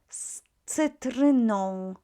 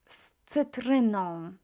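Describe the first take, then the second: First: The first sound is a voiceless s. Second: The same.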